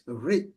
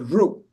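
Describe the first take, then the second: First: The letter ends in an 'i' sound. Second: The letter ends in an 'u' sound. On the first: This is the standard Sanskrit way of saying it. "in Sanskrit, it's Ri" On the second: This is a regional way of saying it. "They like to pronounce it as Ru"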